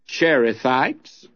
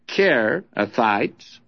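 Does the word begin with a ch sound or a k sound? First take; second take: ch; k. First: The word begins with a ch sound. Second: The word begins with a k sound. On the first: "some of these would call them Cherithites" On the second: "generally it's Kerithites"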